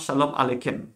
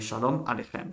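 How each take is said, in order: First: The middle consonant is not a throaty rasp. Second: The middle consonant is a throaty rasp. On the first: The speaker calls it wrong. "pas Shalom Alechem" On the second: The speaker calls it right. "Non, c'est Shalom Alechem"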